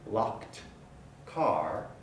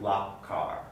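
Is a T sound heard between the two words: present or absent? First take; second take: present; absent. First: A T sound is heard before car. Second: No T sound is heard before car.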